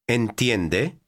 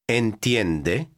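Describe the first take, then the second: First: The voice rises at the end, as a question. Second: The same.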